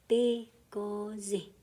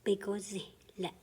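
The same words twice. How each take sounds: First: "Bigozi" drawn out slowly; slow teaching model. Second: "Bigozi le" said quickly as one word; quick, as the teacher says it; quick run-through. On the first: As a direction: stretch "Bigozi" out. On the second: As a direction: rattle off "Bigozi le" fast. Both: Shown as a demonstration. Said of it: "a long word that you kinda say fast".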